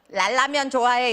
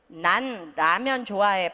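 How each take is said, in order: First: The first word ends with an l sound. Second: The first word ends with a clear n sound. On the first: The speaker calls it wrong. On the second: The speaker calls it right.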